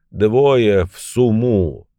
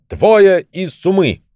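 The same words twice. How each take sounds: First: Slow, laboured, understated utterance; barely managing words. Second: High, slow, commanding call; self-important shout. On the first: Beaten old man orders fellows back, barely managing words. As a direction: drag the words out as if barely able. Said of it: "он едва мог проговорить". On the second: Old man showing off his magic bag to wife, self-important shout. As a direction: call it out high, drawing out the words. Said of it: "приважно расселся и крикнул". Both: A narrator's reading.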